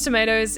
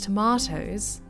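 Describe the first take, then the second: First: It is said in an American accent. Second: It is said in a British accent. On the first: "in American, like, with the American accent" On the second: "in the U K and Australia"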